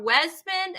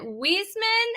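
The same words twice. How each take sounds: First: Wesman with a short e; unsure pronunciation. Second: Wiesman with a long ee; unsure pronunciation. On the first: Host guessing at a viewer's surname, Wesman with short e. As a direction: say "Wesman" as WEZ-man. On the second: Host guessing at a viewer's surname, Wiesman with long ee. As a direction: say "Wiesman" as WEEZ-man. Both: Shown as a demonstration. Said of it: "if I say it wrong".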